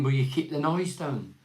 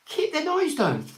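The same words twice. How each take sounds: First: Said in the usual way. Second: Much higher, slow disbelieving echo of noise down; incredulous. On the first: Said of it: "put this letter out saying". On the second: Real, not acted. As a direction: repeat it like you can't believe anyone wrote it. Mocking the letter in disbelief.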